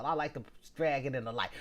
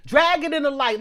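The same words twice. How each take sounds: First: Said in the usual way. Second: Loud, high-pitched declaration; emphatic outburst. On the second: Real, not acted. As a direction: belt it out emphatically. Emphatic repeat of her phrase.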